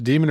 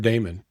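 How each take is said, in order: First: The first vowel sounds like 'ee'. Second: The first vowel sounds like 'ay'. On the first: "is it pronounced demon or Damon?" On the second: "is it pronounced demon or Damon?"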